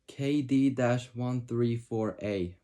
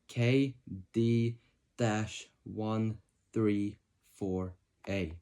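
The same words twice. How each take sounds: First: It is read at a normal speaking pace. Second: It is read slowly and deliberately.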